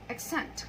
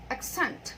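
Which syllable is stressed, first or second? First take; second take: second; second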